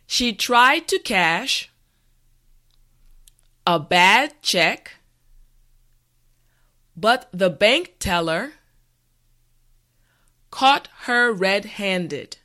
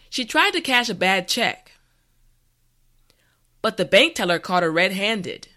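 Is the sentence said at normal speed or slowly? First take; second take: slowly; normal speed. First: The sentence is said slowly and carefully. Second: The sentence is said at normal speed. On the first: "this time repeat after me" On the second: "the last time at a regular pace"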